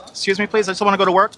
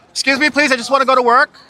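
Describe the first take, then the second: First: Said in the usual way. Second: High polite voice. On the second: Pretend. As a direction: sweetly beg to pass. Pushing through crowd, put-on voice.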